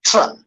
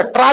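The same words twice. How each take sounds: First: "ट्रा" starting like "chra". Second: "ट्रा" with a hard t before r; plain T-R sound. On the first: Teacher gives the right sound, "ट्रा" as chra. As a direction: say "ट्रा" with a slight ch before the r. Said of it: "थोड़ा like चा का". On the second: Teacher shows what not to say, "ट्रा" with hard T. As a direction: say "ट्रा" with a crisp T, no ch. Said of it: "ट्रा नहीं बोलना अपन". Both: Shown as a demonstration.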